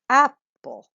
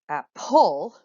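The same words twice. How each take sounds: First: The stress is on the first syllable. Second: The stress is on the second syllable. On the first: The speaker calls it right. "I hope that sounds more reasonable to your ear" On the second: The speaker calls it wrong. "which I hope to your ear sounds awful because we don't say apple"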